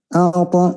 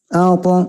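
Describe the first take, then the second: The two takes are said the same way.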